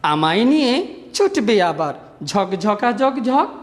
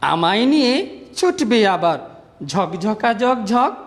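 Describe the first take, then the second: The two takes are said the same way.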